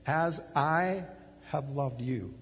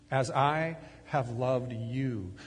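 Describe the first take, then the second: First: Said in the usual way. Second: As I have loved you, drawn out slowly, leaning on I; slow emphasis. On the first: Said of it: "He's describing a disciple". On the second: Shown as a demonstration. Preacher lingering on Jesus' words, slowly. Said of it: "your personal experience of me loving you".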